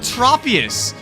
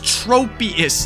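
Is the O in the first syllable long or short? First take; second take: short; long. First: The first O is short, as in trop. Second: The first O is long, as in trope. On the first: The speaker calls it wrong. "if you're saying a short trop" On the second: The speaker calls it right. "the first vowel makes its uh, capital sound"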